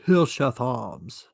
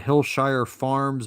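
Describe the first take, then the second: First: It is said in a put-on British accent. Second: It is said in the speaker's normal accent.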